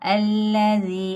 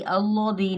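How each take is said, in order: First: The L is pronounced thin and light. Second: The L is pronounced thick and heavy. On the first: The speaker calls it right. "ये लाम उन लाम के अलावा है तो बारीक ही अदा करेंगे।" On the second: The speaker calls it wrong. "अल्लाज़ी नहीं पढ़ सकते।"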